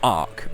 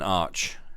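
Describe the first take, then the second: First: The word ends in a k sound. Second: The word ends in a ch sound. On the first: "some people pronounce it Arc" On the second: "Rather than Arch"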